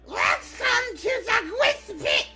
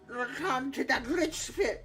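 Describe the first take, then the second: First: It is said in a Toad voice. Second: It is said without the Toad voice.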